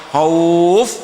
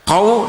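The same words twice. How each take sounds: First: The vowel is drawn out long. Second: The vowel is short. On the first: The reader stops on this word. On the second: The word is not at a stop. "tidak panjang"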